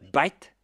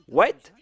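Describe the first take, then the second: First: It starts with a B sound, Indian style. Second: It starts with a plain W sound.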